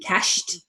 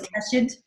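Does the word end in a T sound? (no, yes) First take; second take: yes; no. First: The ending is pronounced as a T sound. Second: The ending is not pronounced as a T sound. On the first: The speaker calls it right. "cashed should sound like a T" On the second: The speaker calls it wrong. "and it was cached"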